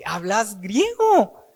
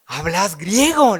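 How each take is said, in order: First: Startled question. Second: Surprised question. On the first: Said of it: "se quedó asustado". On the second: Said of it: "le dice". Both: Acted.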